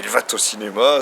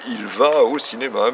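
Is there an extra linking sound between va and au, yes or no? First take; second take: yes; no. First: An extra linking sound is added between va and au. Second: No linking sound is added between va and au. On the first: The speaker calls it wrong. "ça marche pas" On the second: The speaker calls it right. "puisque c'est il va au cinéma"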